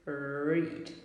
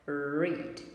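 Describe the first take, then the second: The two takes are said the same way.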